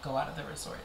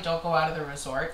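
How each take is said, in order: First: Low, soft, offhand counter; casual dismissal. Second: Mildly cautioning, at her usual volume; lightly voiced warning from others; cautionary warning. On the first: Real, not acted. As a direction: brush the warning aside quietly. Her own reply to the warning. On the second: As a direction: quote a well-meant warning. Quoting warning, then countering it.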